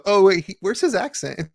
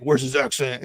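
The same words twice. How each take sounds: First: Higher-pitched puzzled double take; puzzled "oh, wait" moment; belated realization. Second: Quick retold demand at normal pitch; mock on-the-spot query, pitch not lifted; instant-reaction mock question. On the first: Retold or imitated. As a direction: notice it late, pitch lifted. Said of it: "took me, like, a few episodes to go". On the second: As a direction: imitate noticing it straight away. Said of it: "it wasn't instantly like".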